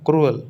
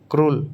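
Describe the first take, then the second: First: क्रूअल in two syllables, kroo-ul; क्रूअल with a clear second vowel; correct pronunciation. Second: क्रूल clipped as one syllable, krool; the wrong way, क्रूल in one beat; क्रूल said short, no second vowel; wrong pronunciation. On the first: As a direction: split it, क्रूअल as kroo then ul. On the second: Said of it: "क्रूल नहीं". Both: Shown as a demonstration.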